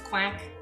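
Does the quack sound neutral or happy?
neutral. The quack sounds neutral and level.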